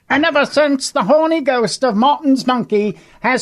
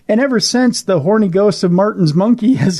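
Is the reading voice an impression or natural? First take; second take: impression; natural. First: Read in a high, hyped-up put-on voice. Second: Read in the speaker's own ordinary voice.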